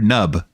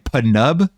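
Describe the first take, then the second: First: The name begins without any P sound. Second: The name begins with a pronounced P sound.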